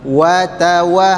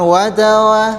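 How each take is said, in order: First: The w sound is pronounced clearly. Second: The w sound is blurred and unclear. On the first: The speaker calls it right. "harus jelas" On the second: The speaker calls it wrong. "Jadi bukan"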